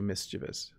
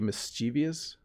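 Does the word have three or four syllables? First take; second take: three; four. First: The word is said with three syllables, no extra 'ee' before the end. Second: The word is said with four syllables, an extra 'ee' before the end. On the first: This is how the speaker says it. "but I say mischievous" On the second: This is how some other people say it. "some people say mischievous"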